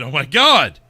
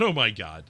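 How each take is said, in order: First: Much louder, shouted Oh my God; loud exclamation. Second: Said in the usual way. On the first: Shown as a demonstration. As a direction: belt out Oh, my God. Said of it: "I mean". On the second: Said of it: "Oh, I said".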